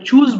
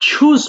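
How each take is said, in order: First: The ch is plain, without a puff of air. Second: The ch is breathy, with a puff of air. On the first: The speaker calls it wrong. "এখানে দেখো চুজ বলবো না" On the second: The speaker calls it right. "ছয়ের মতো করে উচ্চারণ করবা"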